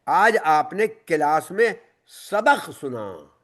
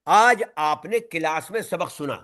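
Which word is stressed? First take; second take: सबक सुना; आज. First: The stress is on सबक सुना. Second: The stress is on आज.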